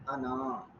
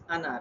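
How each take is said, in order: First: The final vowel is lengthened into a long alif. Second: The final vowel is short, with no long alif. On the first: The speaker calls it wrong. "rather than ana" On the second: The speaker calls it right. "Always read as ana"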